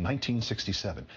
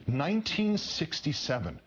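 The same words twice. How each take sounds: First: Said in the usual way. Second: "Nineteen sixty-seven" repeated high, each word weighted; "Nineteen sixty-seven" pitched up for pointed emphasis; emphatic repetition. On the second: Real, not acted.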